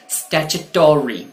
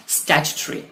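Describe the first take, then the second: First: स्टैट्यूटरी slowly as "statch-uh-TAW-ree"; slow American स्टैट्यूटरी with a long o; US pronunciation. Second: स्टैट्यूटरी as "STATCH-tree", ending squeezed; British स्टैट्यूटरी, no o in the ending; UK pronunciation. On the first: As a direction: draw out a full "taw-ree" ending on स्टैट्यूटरी. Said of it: "US pronunciation इसी word का होता है". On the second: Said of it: "ये है आपका UK pronunciation इस word का". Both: Shown as a demonstration.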